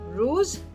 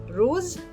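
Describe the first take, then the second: First: The vowel is an oo sound. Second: The same.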